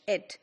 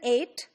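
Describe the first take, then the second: First: The vowel sounds like the one in met. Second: The vowel rhymes with mate. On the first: "British it" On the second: "American eight"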